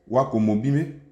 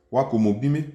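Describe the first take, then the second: First: "Wako mobime" again with "wa" rising in pitch; rising intonation on wa. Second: "Wako mobime" with "wa" rising; rising intonation on wa. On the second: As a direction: lift the pitch on "wa" of "Wako mobime". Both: Shown as a demonstration. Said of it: "Intonation sur le wa, elles montent".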